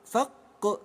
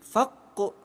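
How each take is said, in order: The two takes are said the same way.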